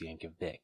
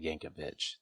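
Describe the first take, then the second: First: The name ends with a 'k' sound. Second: The name ends with a 'ch' sound. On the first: The speaker calls it right. "there's no H, ... it's Yankovic" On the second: The speaker calls it wrong. "of course it's not Yankovic"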